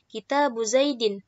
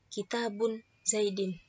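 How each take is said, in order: First: The first word ends in a plain vowel. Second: The first word ends with an added n. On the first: The speaker calls it right. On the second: The speaker calls it wrong.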